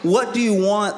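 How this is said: It sounds exasperated, like at wits' end.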